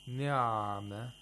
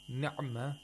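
First: The ayin sound is held too long. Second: The ayin sound is cut very short. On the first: "you're spending too much time on the ayin" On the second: "that's like a letter of shiddah... You spend less time on the ayin"

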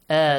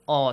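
First: The vowel is a clear, light 'a'. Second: The vowel is rounded and heavy, like 'aw'. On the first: "With light letters" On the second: "With heavy letters"

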